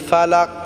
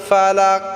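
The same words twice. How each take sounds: Both takes have the same delivery.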